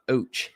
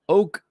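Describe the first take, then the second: First: The syllable ends with a 'ch' sound. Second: The syllable ends with a 'k' sound. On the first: The speaker calls it wrong. "Not oach" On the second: The speaker calls it right. "That that pronunciation is oak"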